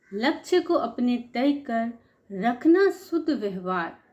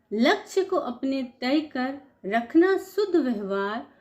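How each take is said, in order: The two takes are said the same way.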